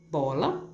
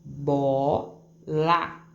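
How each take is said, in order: First: Said in the usual way. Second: BOLA said as two separate beats, BO, LA; split into syllables. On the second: Shown as a demonstration. Teacher shows fifth graders where Bola splits, syllable by syllable. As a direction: break BOLA apart syllable by syllable. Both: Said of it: "separar a minha sílaba".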